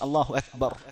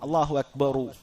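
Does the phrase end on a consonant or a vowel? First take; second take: consonant; vowel. First: The phrase stops on the final consonant. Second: The phrase ends with an added final vowel. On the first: The speaker calls it right. "വഖഫ് ചെയ്തുകൊണ്ട് അഥവാ സുക്കൂന് ചെയ്തുകൊണ്ടാണ് പറയേണ്ടത്" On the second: The speaker calls it wrong. "ലാ തമുദ്ദ ... എന്ന രൂപത്തിൽ പറയേണ്ടതില്ല"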